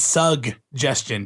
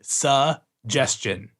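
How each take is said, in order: First: The first syllable is sug, with a g sound. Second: The first syllable is su, without a g sound. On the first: The speaker calls it right. "Sorry, it's suggestion" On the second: The speaker calls it wrong. "I always said suggestion"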